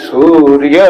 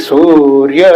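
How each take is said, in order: No difference in how they are said.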